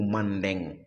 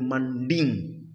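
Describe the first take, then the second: First: The last syllable has an e vowel, deng. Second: The last syllable has an i vowel, ding. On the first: "ou mandeng" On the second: "on peut dire manding"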